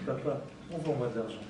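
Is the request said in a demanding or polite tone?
polite. The request sounds gentle and polite. The son is speaking respectfully to his father. The speaker calls it right. "maintenant, il a appris à parler"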